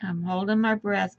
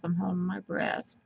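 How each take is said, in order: First: Tight voice, holding breath. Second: Softer, breath held tight; squeezed out while holding breath. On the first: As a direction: speak while holding breath. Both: Real, not acted.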